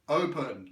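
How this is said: It is said as a firm command.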